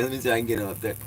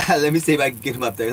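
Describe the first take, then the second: First: Said in the usual way. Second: Laughing. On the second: Real, not acted.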